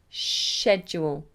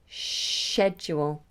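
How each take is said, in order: First: It begins with an sh sound. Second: The same.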